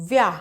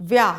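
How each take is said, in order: No difference in how they are said.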